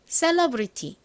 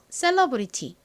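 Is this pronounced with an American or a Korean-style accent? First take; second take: Korean; Korean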